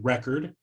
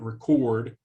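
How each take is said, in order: First: The stress is on the first syllable. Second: The stress is on the second syllable. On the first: It is used as a noun. "same with with record, the noun" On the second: It is used as a verb. "and record, the verb"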